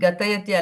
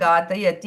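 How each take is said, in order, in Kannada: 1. ಮೊದಲ ಸ್ವರ ಹ್ರಸ್ವ. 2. ಮೊದಲ ಸ್ವರ ದೀರ್ಘ. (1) "ಗತಯತಿ ಅಲ್ಲ" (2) "ಘಾ ದೀರ್ಘ ಇದೆ"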